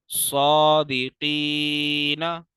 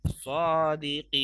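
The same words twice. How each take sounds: First: Slow Quranic recitation of "सादिकीना" with open ending; without waqf. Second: Long "ee" in "सादिकीन", closed on a silent-vowel noon; drawn-out Quranic "सादिकीन", no final vowel; with waqf. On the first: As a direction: recite "सादिकीना" loudly, drawn out, sounding the final "ना". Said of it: "हम बगैर वक्फ के पढ़ेंगे". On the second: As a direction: recite "सादिकीन" slowly, loudly, stopping on "n". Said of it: "अब वक्फ की सूरत में". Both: Shown as a demonstration.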